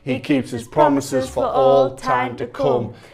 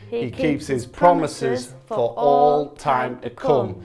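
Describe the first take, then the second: First: It is said at a faster pace. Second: It is said at a slower pace.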